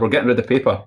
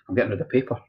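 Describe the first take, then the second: First: It is said noticeably louder. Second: It is said at a normal, quieter volume.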